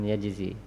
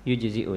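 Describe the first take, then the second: First: The first vowel is a, with no glottal stop. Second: The first vowel is u, ending in a glottal stop. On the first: The speaker calls it wrong. "bukan yajzi" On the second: The speaker calls it right. "dan tidak yujzi'u ya"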